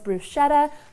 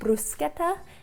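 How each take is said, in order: First: The word is said with an American pronunciation. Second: The word is said with an Italian pronunciation. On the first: "In America, we just call this bruschetta" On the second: "in Italy, they call it bruschetta"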